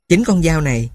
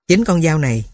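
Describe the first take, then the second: No difference in how they are said.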